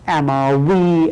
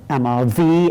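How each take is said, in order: First: The middle consonant sounds like an English w. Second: The middle consonant sounds like an English v. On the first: This is the pronunciation the students were taught. "as you would say" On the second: This is the older school pronunciation the teacher uses. "I say amar vi"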